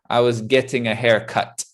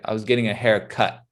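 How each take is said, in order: First: The T sounds are fully released. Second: The T sounds are held and not released. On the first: The speaker calls it wrong. "We generally wouldn't say" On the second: The speaker calls it right. "That T sound stops at the top. We don't finish it"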